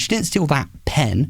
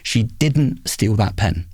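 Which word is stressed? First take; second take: pen; didn't. First: The stress falls on the word pen. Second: The stress falls on the word didn't. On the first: She stole something else. "she stole something else" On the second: It is the true meaning of the sentence. "if I emphasise the second word"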